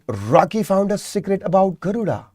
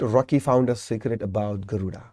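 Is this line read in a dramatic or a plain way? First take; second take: dramatic; plain. First: It is read in a dramatic storytelling way. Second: It is read in a plain everyday way.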